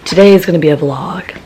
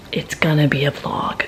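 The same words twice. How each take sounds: First: Said in the usual way. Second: Whispered repeat of the line; secretive whisper to camera. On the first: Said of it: "repeats line, second whispered". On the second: Shown as a demonstration. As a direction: drop to a breathy whisper. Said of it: "repeats line as a whisper".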